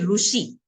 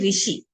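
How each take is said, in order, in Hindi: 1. पहला अक्षर 'ru' की आवाज़ के साथ बोला जाता है। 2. पहला अक्षर 'ri' की आवाज़ के साथ बोला जाता है। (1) "महाराष्ट्र साइड चले जाओ वो बोलेंगे ... वो ऊ को प्रोनाउंस करते हैं" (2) "नॉर्थ साइड वाले हैं ना वो बोलेंगे"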